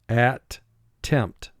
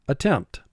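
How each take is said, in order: First: The two syllables are separated by a pause. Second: The two syllables run together without a pause.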